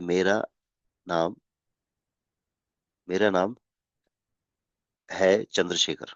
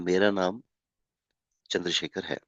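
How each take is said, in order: First: It is said with breaks and delays. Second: It is said smoothly without breaks.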